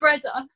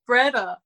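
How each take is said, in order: First: It is said in a posh accent. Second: It is said in the friend's casual accent.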